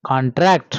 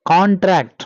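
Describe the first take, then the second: First: Con-TRACT, slowly, stressed at the end; second-syllable stress. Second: CON-tract, slowly, stressed at the start; first-syllable stress. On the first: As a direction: stress TRACT in "contract" for the verb. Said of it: "contract for verb". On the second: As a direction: stress CON in "contract" for the noun. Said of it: "we have to pronounce this word". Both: Shown as a demonstration.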